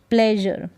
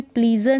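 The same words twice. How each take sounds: First: "प्लेजर" with an eh vowel, pleh-zhur; correct pronunciation. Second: "प्लीज़र" with a long ee, plee-zur; wrong pronunciation. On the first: Teacher giving the right reading of pleasure, eh in "प्लेजर". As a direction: say "प्लेजर" with eh, falling at the end. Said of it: "क्या पढ़ेंगे?". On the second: Teacher warning against misreading pleasure, long-ee "प्लीज़र". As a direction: say "प्लीज़र" with ee in the first syllable. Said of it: "प्लीज़र नहीं पढ़ेंगे". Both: Shown as a demonstration.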